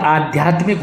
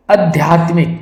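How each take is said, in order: First: आध्यात्मिक with long first aa; correct pronunciation. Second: आध्यात्मिक with short first a; wrong pronunciation. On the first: Teacher giving the answer, आध्यात्मिक starting with long aa. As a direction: say आध्यात्मिक as "aa-dhyaatmik". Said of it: "आध्यात्मिक होता है". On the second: Teacher showing the error, आध्यात्मिक starting short. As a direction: say आध्यात्मिक as "a-dhyaatmik". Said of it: "ये बिल्कुल गलत है". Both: Shown as a demonstration.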